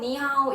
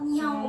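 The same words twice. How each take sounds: First: It is said in a plain, friendly tone. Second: It is said in a sneering, mocking tone. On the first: Someone is greeting to attract customers. "호객행위를 하려고" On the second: Someone is taunting a stranger. "비아냥 거리는 말투로"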